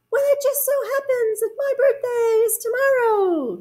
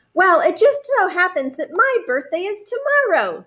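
First: Very high, sing-out echo voice; echoing moon. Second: High, animated bear voice; storybook Bear. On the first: Moon echoes bear's news back, high echo voice. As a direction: mimic it from far off, very high. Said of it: "said the moon". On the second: Bear tells the moon about his birthday, high character voice. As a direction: announce it brightly, pitched up. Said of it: "said Bear". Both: A narrator's reading.

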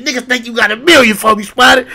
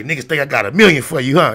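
First: Very high, loud mimicked retort; imitating indignant comeback. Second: Raised-pitch teasing challenge to a friend; retold challenge. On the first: Retelling the homie's retort to Spider, hammed-up indignant yell. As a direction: mimic him throwing it back, voice shooting up. Homie throws the challenge back. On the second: Telling how he challenged his homie, mock confrontational. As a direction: throw it at him as a challenge, voice up.

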